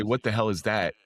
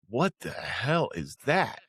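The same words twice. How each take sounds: First: Said in the usual way. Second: Slow, drawn-out incredulous question; retold bafflement. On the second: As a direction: stretch each word in mock disbelief. Retelling baffled reaction in church.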